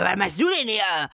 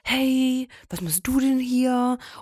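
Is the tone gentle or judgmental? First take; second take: judgmental; gentle. First: It is said in a judgmental, accusing tone. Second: It is said in a gentle, caring tone.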